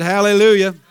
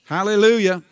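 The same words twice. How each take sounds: First: Hallelujah pushed out louder, calling for a response. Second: Said in the usual way. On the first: Real, not acted. Preacher urging the congregation to answer, a louder hallelujah. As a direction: call hallelujah out again with more force. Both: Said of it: "I said hallelujah".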